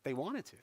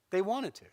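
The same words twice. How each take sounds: First: Softer, rising first take of wanted; hushed take with "wanted" rising; soft echo. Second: "wanted" pressed down, falling firmly; firm repeat with "wanted" stressed and falling. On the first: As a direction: let "wanted" float up, soft and quiet. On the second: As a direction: land hard on "wanted", falling at the end. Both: Shown as a demonstration. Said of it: "It's cute that you think they need a reason".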